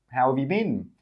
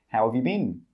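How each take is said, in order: No difference in how they are said.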